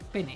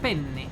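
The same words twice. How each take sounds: First: The n sound is short and single. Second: The n sound is held long, doubled. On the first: This is the Spanish word for penis. "but you pronounce it penne" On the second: This is the Italian pasta name. "the way they pronounce it is like penne"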